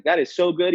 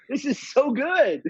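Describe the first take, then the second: First: Said in the usual way. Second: Much higher, gleeful; delighted. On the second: Real, not acted. Theorist delights in little Billy's lying, gleeful. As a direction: gush with delight.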